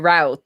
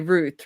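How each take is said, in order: First: The vowel sounds like the one in 'out'. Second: The vowel sounds like the one in 'boot'. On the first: The speaker calls it wrong. "you wouldn't say" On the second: The speaker calls it right. "you would say"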